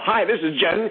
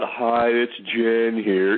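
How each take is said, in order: First: It is said with lively, excited energy. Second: It is said flatly, without much energy.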